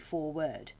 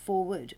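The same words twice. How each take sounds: First: The word ends clearly with 'word', as spelled. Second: The word sounds like 'forward', with a reduced ending. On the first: "or is it literally foreword?" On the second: "Is that pronounced foreword"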